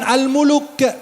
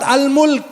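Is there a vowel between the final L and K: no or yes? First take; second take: yes; no. First: An extra vowel is inserted between L and K. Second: The L and K come together without a vowel. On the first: The speaker calls it wrong. "bukan Al-Muluk" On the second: The speaker calls it right. "Surat Al-Mulk"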